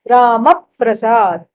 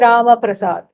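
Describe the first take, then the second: First: The 'pr' after Rama is held and doubled. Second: The 'pr' after Rama is short and single. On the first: The speaker calls it right. "there should be a doubling of that pra" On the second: The speaker calls it wrong. "you don't say Rama Prasad"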